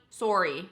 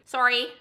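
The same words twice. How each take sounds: First: Sorry with Canadian rounded O, "soh-ree". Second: Sorry with an open vowel, "sah-ree", higher and louder; mock-repeat sorry as "sah-ree"; imitated sorry. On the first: Retold or imitated. Commenters echoing her sorry, Canadian "soh-ree". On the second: Commenters picking on her accent, sorry echoed as "sah-ree". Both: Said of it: "the way she said sorry".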